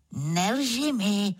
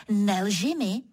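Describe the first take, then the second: First: Slow, drawn-out gentle reproach; unhurried teasing leopard; smiling leopard. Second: Mildly stern command; firm, brief telling-off. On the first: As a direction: stretch both words through a knowing smile. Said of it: "řekl Levhart a usmál se". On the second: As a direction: order it sternly without raising the voice. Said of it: "Zase tak přísně řeknu". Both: A narrator's reading.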